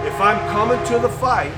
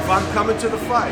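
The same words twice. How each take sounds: First: Loud, high declaration; loud resolute promise; firm vow. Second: Loud, high resolve; loud second take of the vow; firm vow repeated. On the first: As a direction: proclaim it like a vow. Repeated vow, emphatic. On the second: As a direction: hammer the vow home. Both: Retold or imitated.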